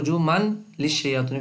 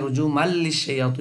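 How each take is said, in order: First: A clear n sound is heard before the l. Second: The n merges into the l without nasal sound. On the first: This is the word as it stands. "শব্দটা হইল রুজু মান লিশায়াতিন" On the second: The rule of merging without nasalization applies. "এদগামে বেলা গুন্না হওয়ার কারণে রুজু মাল লিশায়াতিন হইছে"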